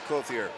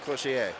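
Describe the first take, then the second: First: The name is pronounced the English way. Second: The name is pronounced the French way. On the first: The speaker calls it right. "but it's Clothier" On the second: The speaker calls it wrong. "I was going for the French pronunciation"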